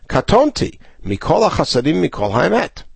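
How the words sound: There is a clear pause after the first word. "then we have to make a stop"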